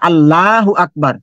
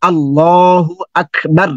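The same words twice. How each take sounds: First: আল্লাহু আকবার with a thin light ল, mispronounced; deliberately wrong thin-ল recitation; wrong pronunciation. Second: আল্লাহু আকবার drawn out slowly with a heavy ল; slow heavy-ল Arabic recitation; correct recitation. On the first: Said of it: "তো এটা ভুল হয়ে যাবে". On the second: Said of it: "একটা উদাহরণ দিই". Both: Shown as a demonstration.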